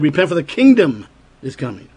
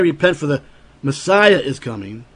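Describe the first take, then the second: First: "kingdom" stressed, firm falling close. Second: "Messiah" stressed and rising at the end. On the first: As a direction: hit "kingdom" clearly. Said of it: "He said". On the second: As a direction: lean on "Messiah", not on "kingdom". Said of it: "He didn't say". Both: Shown as a demonstration.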